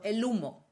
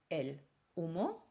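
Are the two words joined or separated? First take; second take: joined; separated. First: The two words run together without a break. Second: The two words are said separately, with a break. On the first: The speaker calls it right. "ich muss es zusammenziehen. Es ist also el humo" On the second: The speaker calls it wrong. "Ich kann nicht sagen el humo"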